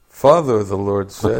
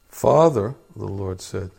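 First: It is read at a louder volume. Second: It is read at a quiet volume.

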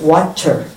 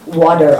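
First: The word is said slowly and carefully. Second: The word is said quickly and casually. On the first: This is adjusted for listeners unused to fast speech. "As soon as I get out of this country, I speak like this" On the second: This is the usual way among local listeners. "I don't say water"

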